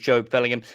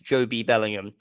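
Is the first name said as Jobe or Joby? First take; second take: Jobe; Joby. First: The first name is said as Jobe. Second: The first name is said as Joby. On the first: The speaker calls it right. "whose actual name is" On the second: The speaker calls it wrong. "the mispronounced"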